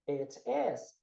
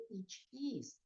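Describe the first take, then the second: First: "it is" with short, e-like vowels; low "it is", almost "et es"; native-like pronunciation. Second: "It is" with long ee sounds; softer "It is", said "eet ees"; learned mispronunciation. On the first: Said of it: "Que nem eu te falei". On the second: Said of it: "porque você aprendeu". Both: Shown as a demonstration.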